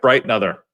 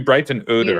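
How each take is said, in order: First: The name is squished together with the middle mumbled. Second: The name is said in full with every part. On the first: This is how the family says it now. "Squ- squish it" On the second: This is how it was said long ago. "It used to be"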